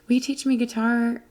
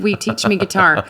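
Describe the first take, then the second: First: It is said quietly. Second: It is said loudly.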